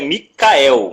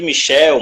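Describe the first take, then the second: First: The middle consonant is said as a plain C. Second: The middle consonant is said as a CH sound. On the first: "o certo é Micael, como se fosse escrito sem o H" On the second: "a galera chama de Michel"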